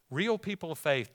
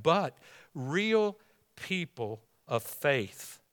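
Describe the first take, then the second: First: Said in the usual way. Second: "real people of faith" stretched slow, "real" leaned on; slow, weighty "real people of faith"; slow drawn-out phrase. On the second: Acted. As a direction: linger over "real". Preacher restarts the phrase.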